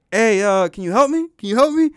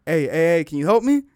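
First: Calling out louder and higher for help. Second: First call for help. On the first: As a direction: shout across the water so they finally hear you. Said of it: "I don't think they heard me". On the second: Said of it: "I was like". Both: Retold or imitated.

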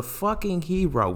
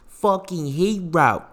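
First: Said in the usual way. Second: "Fucking hero" stretched out slowly; slow emphatic repeat. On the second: Real, not acted. Podcaster praises doctor to listeners, slow emphatic repeat. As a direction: draw out HERO, word by word.

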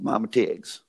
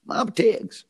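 First: Said in the usual way. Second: "Mama Tig's" lifted much higher, falling on "Tig's"; sing-song name. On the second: Shown as a demonstration. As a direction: call out "Mama Tig's" high, like a jingle.

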